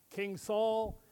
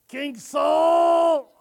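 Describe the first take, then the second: First: Said in the usual way. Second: Shouted call at full volume; a loud yell for the king; too loud. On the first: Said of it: "you say". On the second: Acted. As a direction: bellow the name across the room. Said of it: "Not so loud".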